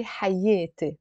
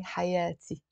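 First: حياتي as hayete; Lebanese e vowel. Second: حياتي as hayati with open a; singer's a vowel. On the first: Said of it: "So we say". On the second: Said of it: "but here he's saying". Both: Shown as a demonstration.

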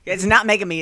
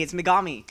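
First: "Megami" corrected with a louder "not"; firm correction of "Megami"; correcting a pronunciation. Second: "Megami" said as meh-GAH-mee, stress on the middle; correct pronunciation. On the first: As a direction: insist it's not "Megami". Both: Shown as a demonstration. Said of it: "keeps getting on my back 'cause I keep saying Megami".

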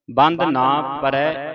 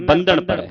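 First: ਬੰਧ ਨਾ as two words with a long "naa"; wrongly split word. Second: ਬੰਧਨ run together with a short final N; correct, firm ਬੰਧਨ in one piece; joined as one word. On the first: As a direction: break it into ਬੰਧ, then ਨਾ. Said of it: "ਇਹ ਪਾਠ ਨਹੀਂ ਪੜ੍ਹਨਾ". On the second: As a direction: say ਬੰਧਨ whole, no break before N. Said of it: "ਇਹਨੂੰ ਬੰਧਨ ਪੜ੍ਹਨਾ ਇਕੱਠਾ". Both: Shown as a demonstration.

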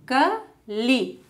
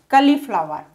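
First: Cauliflower as cau-li-flow-er, spaced out; four separate beats for Cauliflower; syllable by syllable. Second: Said in the usual way. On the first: Shown as a demonstration. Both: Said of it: "how to divide words".

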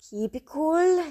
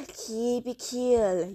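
First: Tense self-talk. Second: Slow self-calming. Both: Real, not acted.

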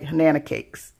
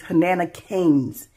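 First: Hanana Cakes said with a hard K, ending in Cakes; misreading Hanana as Hanana Cakes; wrong name. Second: Hanana Canes said slowly, ending clearly in Canes; carefully fix it to Hanana Canes; corrected name. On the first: Vlogger unsure of a maker's name, getting it wrong. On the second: Vlogger corrects a maker's shop name, slow and careful. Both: Real, not acted. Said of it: "I didn't say it right".

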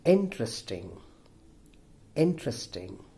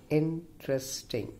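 First: "interesting" said whole, stressed on IN; first-syllable stress. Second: "interesting" broken up as in-tres-ting; syllable by syllable. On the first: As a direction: model "interesting", falling away after IN. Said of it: "The first syllable". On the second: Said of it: "Five-syllable word". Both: Shown as a demonstration.

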